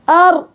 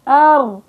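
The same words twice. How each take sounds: First: The r is tense and closed off completely. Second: The r is moderate, with sound partly flowing. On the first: "سكر مخرجها. هلا أنا جبت شدة فيها وسكرت الفجوة" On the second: "اعتدال الصوت عند النطق بالحرف"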